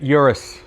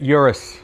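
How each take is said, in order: First: It is said with a casual American pronunciation. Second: The same.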